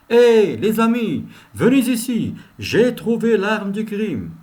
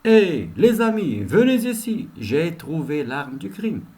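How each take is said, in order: First: Loud, slow call to the team; detective calling colleagues over loudly. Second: Repeated call to colleagues, fading at the end; calling out again. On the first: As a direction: call the others over, excited. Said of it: "Il peut dire, par exemple". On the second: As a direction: shout the first words, then settle down. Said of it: "Ça, à titre d'exemple". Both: Shown as a demonstration.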